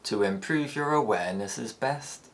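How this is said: The pitch rises gradually through the ending. "the tail gradually rises"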